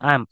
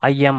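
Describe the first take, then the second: First: It is said as one contracted word. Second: It is said as two full words. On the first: "ஆம் ஆம் அப்படின்னு சொன்னீங்கன்னா உங்களுக்கு ஈஸியா இருக்கும்" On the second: "ஐ எம் ஐ எம் ஐ எம் அப்படின்னு சொல்லாம"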